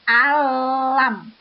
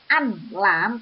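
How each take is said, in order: First: The n merges fully into the l sound. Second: The n is pronounced clearly before the l. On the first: The speaker calls it right. "tapi alam, masuk pada lam" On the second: The speaker calls it wrong. "bukan an lam"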